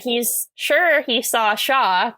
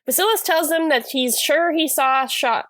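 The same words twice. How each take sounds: First: Slowed down, each word placed with care; slow careful tongue twister. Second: Said in the usual way. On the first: Shown as a demonstration. Retrying a tongue twister for the listener, slow and careful. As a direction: work through the tongue twister slowly. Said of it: "Quite a tongue twister". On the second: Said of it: "I can't say that".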